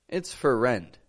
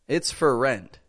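Both takes have the same delivery.

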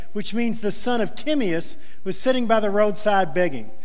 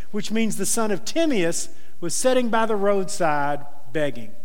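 No difference in how they are said.

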